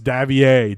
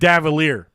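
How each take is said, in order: First: The name is said the French way. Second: The name is said the plain English way. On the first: The speaker calls it right. "but it's French, so it's Davier" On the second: The speaker calls it wrong. "It looks like Davalier"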